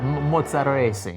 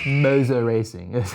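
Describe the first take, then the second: First: The name is pronounced with an Italian accent. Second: The name is pronounced with an American accent. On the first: The speaker calls it right. "you're going to hear me pronounce this more like an Italian" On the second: The speaker calls it wrong. "the Americans will say Mozza"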